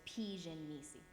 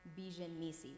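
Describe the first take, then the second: First: The first word begins with a p sound. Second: The first word begins with a b sound. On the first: This is the actual Coptic pronunciation. The speaker calls it right. "when it's Pijan Nisi" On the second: The languages mix and influence the pronunciation. The speaker calls it wrong. "we say like um, Bijan Nisi"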